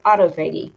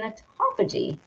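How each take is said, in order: First: Autophagy as auto plus FAY-ghee, hard g; autophagy with a long A in "phag"; alternative autophagy pronunciation. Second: Autophagy with stress on TOFF and a soft g; one-word pronunciation, autophagy as "uh-TAH-fuh-jee"; autophagy, stressed second syllable. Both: Shown as a demonstration. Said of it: "however potato, potato you wanna say it".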